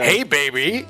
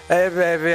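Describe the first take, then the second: First: It is said in a cheesy radio-announcer voice. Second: It is said in a slurred, dry-mouthed stoner voice.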